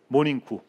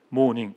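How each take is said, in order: First: The word ends with an added vowel. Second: The word ends in a consonant sound. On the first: This is how it is written in Japanese kana. "일본 글자로 이걸 표기하면요. 최선을 다해서 표기를 해도 모닝구가 됩니다" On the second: This is how it is written in Korean letters. "한글로 아주 그 쉽게 모닝 이렇게 표현을 합니다"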